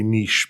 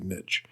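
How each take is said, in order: First: It is said with a British English pronunciation. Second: It is said with an American English pronunciation. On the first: "if you're in Europe, you can say niche, but not in the U S" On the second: "You should say niche"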